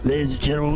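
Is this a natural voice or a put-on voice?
put-on. It is said in a put-on performing voice.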